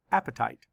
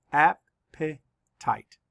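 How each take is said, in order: First: Said in the usual way. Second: Very slow, AP-pe-tite split into syllables. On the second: Shown as a demonstration. Teacher counting syllables for the class, slow and split. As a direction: break Appetite into slow beats. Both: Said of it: "Let's count the syllables".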